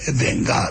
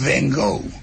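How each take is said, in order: First: The name is said the way its bearer would. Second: The name is said the everyday English way.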